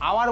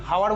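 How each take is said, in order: First: The word starts with a vowel sound. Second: The word starts with an h sound. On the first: The speaker calls it right. "যেরকম ভাই আওয়ার বলি" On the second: The speaker calls it wrong. "হাওয়ার বলি না"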